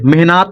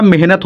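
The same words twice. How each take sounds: First: मेहनत as meh-naat, long aa; the wrong reading मेहनत with long naa; misread मेहनत. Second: मेहनत as meh-nat, short second vowel; the natural word मेहनत, ending in short nat; correct मेहनत. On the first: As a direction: stretch the second vowel of मेहनत to naat. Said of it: "मेहनत नहीं होता". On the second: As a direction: keep the last syllable of मेहनत short. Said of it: "मेहनत होता है". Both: Shown as a demonstration.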